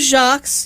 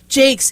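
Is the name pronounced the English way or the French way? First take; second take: French; English. First: The name is said with a French pronunciation. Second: The name is said with an English pronunciation. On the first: The speaker calls it wrong. "here I was giving you a nice French pronunciation" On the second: The speaker calls it right. "It's Jakes"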